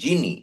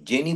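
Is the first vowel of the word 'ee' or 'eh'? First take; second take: ee; eh. First: The first vowel sounds like 'ee'. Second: The first vowel sounds like 'eh'. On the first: The speaker calls it right. "উচ্চারণটা হবে জিনি" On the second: The speaker calls it wrong. "জেনি বলবো না"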